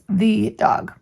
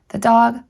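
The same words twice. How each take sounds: First: The stress falls on 'the', with a long vowel. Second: The stress falls on 'dog', with a weak 'the'. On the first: The speaker calls it wrong. "Be very careful not to accent the or to give the E its long sound" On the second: The speaker calls it right. "giving the E its obscure sound and letting the accent fall on dog"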